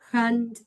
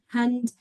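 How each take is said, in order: First: The first sound is a harsh throaty rasp. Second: The first sound is a soft breathy h. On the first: The speaker calls it wrong. "not hand with the Spanish J" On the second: The speaker calls it right. "it's a soft sound"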